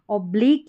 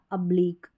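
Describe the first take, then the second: First: ऑब्लिक opening on a full round "o"; first variant. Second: ऑब्लिक opening on a short schwa; second variant. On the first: Teacher offering one of two accepted ways, first variant. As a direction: say ऑब्लिक as "ob-leek". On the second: Teacher offering the other accepted way, second variant. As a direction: say ऑब्लिक as "uh-bleek". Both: Shown as a demonstration. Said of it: "दोनों तरीके से आप pronounce कर सकते हैं".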